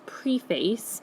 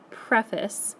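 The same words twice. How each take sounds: First: The first syllable sounds like the prefix pree. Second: The first syllable has a short preh sound. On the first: The speaker calls it wrong. "You don't say this preface" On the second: The speaker calls it right. "you say this word preface"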